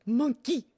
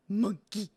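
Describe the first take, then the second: First: High, loud silly call of monkey; playful high announcement. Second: Said in the usual way. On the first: Pretend. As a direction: announce it like a game show. Announcing the cracker animals.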